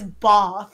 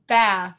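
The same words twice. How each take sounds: First: The vowel sounds like a broad 'ah'. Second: The vowel sounds like a Southern 'eh'. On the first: This is how other people say it. The speaker calls it wrong. "who says bath?" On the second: This is how the speaker says it. The speaker calls it right. "It's bath"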